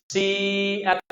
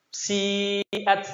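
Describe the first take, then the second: No difference in how they are said.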